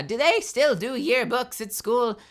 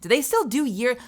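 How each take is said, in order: First: Slow, lightly voiced old-timer asking; old person. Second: Said in the usual way. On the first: Shown as a demonstration. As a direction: ask it like a puzzled grandparent. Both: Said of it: "I sound like an old person now".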